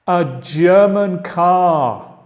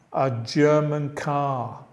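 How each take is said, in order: First: German car said slowly and loudly, stress on German; teacher drilling German car; slow model phrase. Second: Said in the usual way. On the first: Shown as a demonstration. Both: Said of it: "Vamos a seguir".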